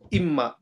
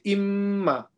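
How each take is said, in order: First: The doubled m is short, without nasal hold. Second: The doubled m is held long through the nose. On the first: The speaker calls it wrong. "We can't say imma" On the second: The speaker calls it right. "We have to say imma"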